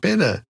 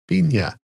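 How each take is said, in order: First: The middle consonant is a plain n sound. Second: The middle consonant is a ny sound. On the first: The speaker calls it wrong. "It's not Pena" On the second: The speaker calls it right. "Get the little thing above it, above the end, like El Nino"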